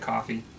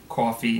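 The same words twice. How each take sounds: First: It is said with a neutral accent. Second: It is said with a New York accent.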